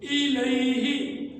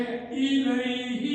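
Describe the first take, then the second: First: الیہ very slowly, ilayhi with each sound clear; drawn-out exact الیہ as ilayhi; correct pronunciation. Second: الیہ said slowly in a plain way; a slow plain الیہ before the correction; الیہ unmarked, slow; plain first take. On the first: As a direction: recite الیہ slowly and carefully the Arabic way. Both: Shown as a demonstration. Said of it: "اس کی صحیح pronunciation".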